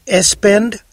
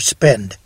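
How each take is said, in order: First: An extra vowel sound comes before the s. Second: The word starts directly with the s sound. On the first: The speaker calls it wrong. "Is it espend or spend?" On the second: The speaker calls it right.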